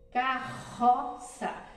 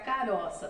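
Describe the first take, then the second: First: The middle R is a strong sound. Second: The middle R is a weak sound. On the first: The speaker calls it right. "é claro que vai ser dois R's" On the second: The speaker calls it wrong. "Se eu colocar um R só, vai ficar caroça"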